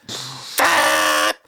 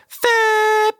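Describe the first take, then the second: First: Breathy unvoiced horn blast; voiceless mock horn; obnoxious bike horn. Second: A high, held horn blast; a squeaky held horn sound; long horn imitation. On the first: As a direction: spit out a nasty horn noise. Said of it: "It goes". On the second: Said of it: "If you hold it".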